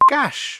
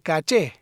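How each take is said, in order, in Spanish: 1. La palabra se pronuncia a la manera inglesa. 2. La palabra se pronuncia a la manera española.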